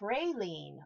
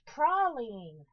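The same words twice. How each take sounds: First: It is said in the speaker's usual, non-English way. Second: It is said the way people in England say it.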